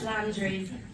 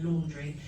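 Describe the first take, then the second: First: The name does not sound like laundry. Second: The name sounds like the word laundry. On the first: The speaker calls it right. "it's Landry" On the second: The speaker calls it wrong. "Everyone calls me Gleeson Laundry"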